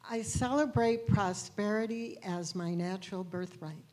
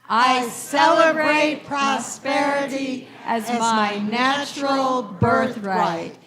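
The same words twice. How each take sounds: First: It is said calmly, with ordinary energy. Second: It is said loudly, with great energy.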